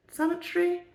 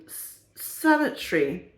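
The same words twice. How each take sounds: First: Sanitary asked with a high rising doubt; sanitary tried out as a question. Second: Said in the usual way. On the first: Shown as a demonstration. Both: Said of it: "Probably the word I want".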